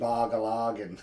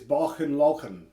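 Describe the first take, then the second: First: Each part has a hard 'g' sound. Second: Each part has a throaty 'ch' sound. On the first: This is how it is said locally in Cape Breton. The speaker calls it wrong. "but we just say Bogalogan" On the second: This is the correct original pronunciation. The speaker calls it right. "the proper proper pronunciation of it is Bochen Lochen, like that"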